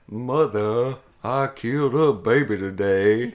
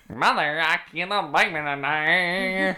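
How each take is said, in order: First: It is said in a deep baritone voice. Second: It is said in a twangy hillbilly voice.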